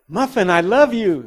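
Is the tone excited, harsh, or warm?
excited. It is said in a lively, excited tone. The listener becomes thrilled. "she would really get excited"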